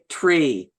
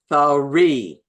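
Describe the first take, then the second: First: The word starts with a plain t sound. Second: The word starts with a th sound. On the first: It marks the speaker as using Pidgin English. The speaker calls it wrong. "don't say tree" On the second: It marks the speaker as using standard English. The speaker calls it right. "It is three"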